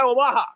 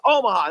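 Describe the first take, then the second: First: "Omaha" said wrongly with a full, stressed MAH; mistaken pronunciation. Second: "Omaha" with a weak middle syllable, raised in pitch; corrected pronunciation. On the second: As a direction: stress the first syllable of "Omaha", OH-muh-hah. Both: Retold or imitated. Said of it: "not Omaha".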